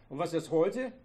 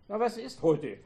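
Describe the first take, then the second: First: Said in the usual way. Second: Pushing the question louder and higher. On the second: A narrator's reading. Husband repeats his question louder at his wife. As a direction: raise your voice, demanding an answer. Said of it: "fragte er lauter werden".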